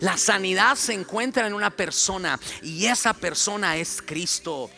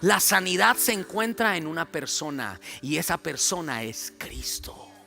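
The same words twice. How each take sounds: First: It is said with much energy and force. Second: It is said with little energy or force.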